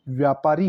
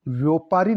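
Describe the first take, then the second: First: Said in the usual way. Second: व्यापारी with "vyo" at the start; mispronounced व्यापारी. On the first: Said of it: "व्यापारी होता है". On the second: Shown as a demonstration. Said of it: "व्यापारी नहीं होता".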